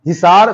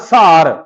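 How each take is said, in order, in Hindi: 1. शब्द 'hi' की आवाज़ से शुरू होता है। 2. शब्द 'sa' की आवाज़ से शुरू होता है।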